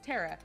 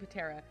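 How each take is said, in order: First: The word starts with a T sound. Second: The word starts with a spoken P sound. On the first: The speaker calls it right. "you do not pronounce the P" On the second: The speaker calls it wrong. "I keep pronouncing the P"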